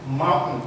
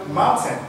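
First: "mountain" with the T swallowed before N. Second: "mountain" with a fully released T; full T. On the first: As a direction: cut "mountain" to "moun'n", American-style. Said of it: "mais vous allez entendre". (« mountain » avec le T avalé) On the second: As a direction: sound out "moun-tain" with its T. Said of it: "Vous n'allez pas entendre mountain". (« mountain » avec le T bien prononcé) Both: Shown as a demonstration.

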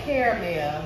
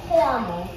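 First: Caramel said KARE-uh-mel, three syllables. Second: Caramel said KAR-mel, two syllables. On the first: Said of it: "I say caramel". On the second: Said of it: "I'ma say caramel today". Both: Shown as a demonstration.

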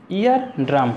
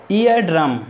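No difference in how they are said.

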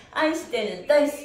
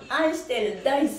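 The two takes are said the same way.

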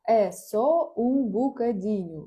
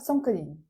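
First: «Е со у букадіню» said slowly, every syllable spelled out; slow down and give each part of «Е со у букадіню»; full careful form. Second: «сом кадінь» run together the way it is heard; casual clipped «сом кадінь»; quick spoken form. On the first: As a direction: written form «Е со у букадіню», spoken slowly and clearly. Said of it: "А пишеться воно отак". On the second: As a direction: blur the words into «сом кадінь». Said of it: "ви можете чути одне". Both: Shown as a demonstration.

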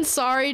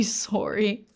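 First: Said in the usual way. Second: SORRY as "sore-ee", the Canadian way. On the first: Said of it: "my American sorry". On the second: Retold or imitated. Poking fun at how Canadians talk, Canadian SORRY. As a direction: imitate a Canadian SORRY with a rounded first vowel. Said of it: "Canadians say sorry".

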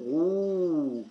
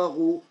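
First: غو held long on a steady oo; long-vowel demo of غو; long waw vowel. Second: غو with a brief u; short-vowel demo of غو; short damma. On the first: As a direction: stretch the vowel of غو well out. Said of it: "غين مد بالواو". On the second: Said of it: "غين ضمة". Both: Shown as a demonstration.

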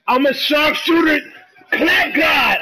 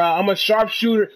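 First: High, hyped-up gamer shout; real hype. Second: Said in the usual way. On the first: Real, not acted. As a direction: shout it out, pumped on your own shot. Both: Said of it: "I got so hyped".

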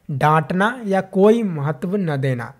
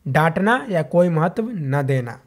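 The two takes are said the same way.

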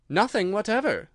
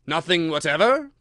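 First: "Nothing whatever" pitched high, falling at the end; high start, decisive drop on "whatever"; firm answer. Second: "Nothing whatever" rising loudly at the end; loud, questioning lift on "whatever"; persistent question. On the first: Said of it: "said Alice". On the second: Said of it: "persisted the king". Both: A narrator's reading.

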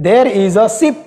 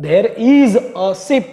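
First: Said in the usual way. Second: There is a ship, drawn out word by word; slow dictation. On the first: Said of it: "example sentence, said first". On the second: Shown as a demonstration. Teacher repeating the example sentence slowly for students. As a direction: spell it out slowly for the class. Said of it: "example sentence, repeated slowly".

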